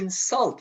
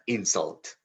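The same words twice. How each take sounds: First: The stress falls where the verb puts it. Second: The stress falls where the noun puts it. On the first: It names an action. "Why do you insult me like that?" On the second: It names a thing. "I can't accept that insult"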